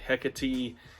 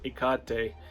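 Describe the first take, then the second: First: It is said with an English-style pronunciation. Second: It is said with a Greek-style pronunciation. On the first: "I've heard Hecate" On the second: "I pronounce it Ikate, which uh, is closer to the Greek uh, pronunciation"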